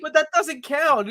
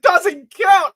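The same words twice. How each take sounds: First: High, slow mock excuse; girlish excuse. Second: Loud, high mock disbelief; incredulous outburst. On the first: Girl excuses the time with Steve, high slow mimicry. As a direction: imitate a girl explaining it away, pitched high. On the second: Boy throws girl's excuse back, shouted mock disbelief. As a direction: shout it back in imitated outrage. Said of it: "I love that delivery".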